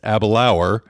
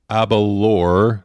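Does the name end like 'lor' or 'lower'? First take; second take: lower; lor. First: The name ends with a 'lower' sound. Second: The name ends with a short 'lor' sound. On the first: The speaker calls it right. "It's Abelauer" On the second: The speaker calls it wrong. "nope, that's not it"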